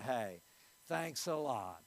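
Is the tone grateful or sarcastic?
sarcastic. The voice sounds annoyed and mockingly thankful. The other person did something that hurt or annoyed the speaker. "That means they just stepped on your toe"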